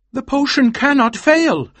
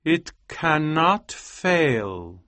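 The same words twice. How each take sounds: First: Very high, loud, vehement exclamation; emphatic insistence. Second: Very slow, higher, solemn delivery; slow assurance. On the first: Husband countering his wife's despair, loud and vehement. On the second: Scientist showing his wife the potion, slow solemn assurance. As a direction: stretch out every word with certainty. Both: A narrator's reading.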